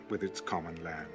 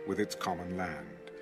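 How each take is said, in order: Both takes have the same delivery.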